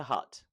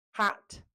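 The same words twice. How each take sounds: First: "hut" with a central uh vowel; A turned to uh. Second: "Hat" with an open front A, pitched high; short A. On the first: Teacher showing the mistake, "hut" with uh vowel. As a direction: say "hut" with uh in place of A. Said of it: "turns to hut". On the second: Teacher showing the right vowel, "Hat" with short A. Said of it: "rather than an a". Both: Shown as a demonstration.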